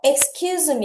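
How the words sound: The voice falls at the end. Sorry to interrupt you for a moment. "끝을 내려서"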